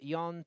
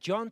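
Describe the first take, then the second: First: The name is said the Basque way. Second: The name is said the English way. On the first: "Jon to the pronunciation of his name in the Basque Country" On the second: "John to some"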